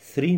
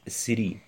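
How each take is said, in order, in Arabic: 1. تبدأ بصوت 'th'. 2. تبدأ بصوت 's'. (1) "يجب عليك تطلع في كلمة three" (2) "ما تقولش سري غلط"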